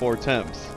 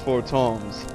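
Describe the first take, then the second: First: The second syllable sounds like 'temps'. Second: The second syllable sounds like 'toms'. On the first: This is how the speaker had been saying it. The speaker calls it wrong. "I've been pronouncing it the way it's spelled" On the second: This is how the game's character says it. The speaker calls it right. "But it's four toms"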